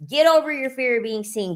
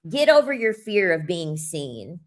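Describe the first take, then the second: First: Fired-up higher repeat. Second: Said in the usual way. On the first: Retold or imitated. Repeated pep talk.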